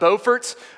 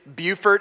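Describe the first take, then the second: First: The name is pronounced the North Carolina way. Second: The name is pronounced the South Carolina way. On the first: This names the town in North Carolina. The speaker calls it wrong. "It is not Beaufort. ... that's the North Carolina one" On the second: This names the town in South Carolina. The speaker calls it right. "it is Beaufort"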